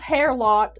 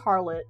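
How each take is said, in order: First: The first syllable sounds like 'hair'. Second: The first syllable sounds like 'har'. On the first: The speaker calls it wrong. "it's not pronounced hair lot" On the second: The speaker calls it right. "it's pronounced harlot"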